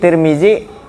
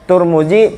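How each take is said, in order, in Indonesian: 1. Suku kata pertama memiliki vokal i. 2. Suku kata pertama memiliki vokal u. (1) "Tiga macam tuh dibaca" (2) "Tiga macam tuh dibaca"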